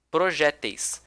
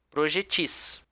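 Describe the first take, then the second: First: "projéteis" stressed on open -JÉ-; middle-syllable stress. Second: "projetis" stressed on the last syllable, -TIS; final-syllable stress. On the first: Teacher gives the first variant's plural, proJÉteis. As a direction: say proJÉteis, with weak -teis. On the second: Teacher gives the second variant's plural, projeTIS. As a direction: say projeTIS, weight on the end. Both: Shown as a demonstration. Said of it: "A mesma forma com projétil".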